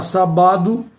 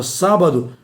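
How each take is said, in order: First: "sabado" stressed on BA, sa-BA-do; stress moved to sabado's middle. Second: "sábado" stressed on SÁ, SÁ-ba-do; stress on sábado's first syllable. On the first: Teacher showing the word without its accent, "sabado" stressed on BA. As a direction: shift the beat to the BA of "sabado". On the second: Teacher showing the accented word, "sábado" stressed on SÁ. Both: Shown as a demonstration. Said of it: "Se retirar o acento".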